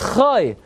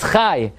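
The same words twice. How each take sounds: First: The syllable has its pausal vowel. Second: The syllable has its ordinary mid-verse vowel. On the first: The name is at the end of a verse. "Whenever it appears at the end of a pasuk" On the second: The name is in the middle of a verse. "Every single time the name appears in the middle of a pasuk"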